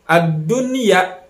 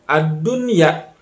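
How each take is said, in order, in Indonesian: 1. Bunyi n jelas diucapkan sebelum y. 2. Bunyi n jelas diucapkan sebelum y.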